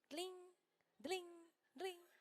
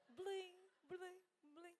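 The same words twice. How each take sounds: First: Soft imitated little bell ding; bell tinkle. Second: Softer mimicked cowbell jingle, playful; cow bell jingle. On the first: Preacher imitates the ringing nail charm, soft tinkling. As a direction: tinkle it softly like a tiny bell. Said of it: "que fazia barulho". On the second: Preacher jokes about the Mimosa cow, soft cowbell jingle. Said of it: "Alguém lembra da vaquinha mimosa?".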